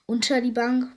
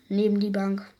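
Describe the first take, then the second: First: "unter" lifted and stressed. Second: "neben" stressed, falling. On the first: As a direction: lean on "unter". (Betonung auf "unter") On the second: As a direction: lean on "neben". (Betonung auf "neben") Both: A narrator's reading. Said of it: "Biene schaute hinter der".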